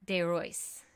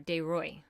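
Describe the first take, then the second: First: The final s sound is pronounced. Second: The final s sound is silent.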